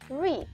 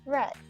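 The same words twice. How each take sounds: First: The vowel is long, like in 'bead'. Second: The vowel is short, like in 'bed'. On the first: The action happens in the present. "In present tense, it is pronounced as read" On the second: The action happened in the past. "In past simple or past participle, it is pronounced as read"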